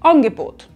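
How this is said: The first vowel is shifted toward an o sound. "zu einem O"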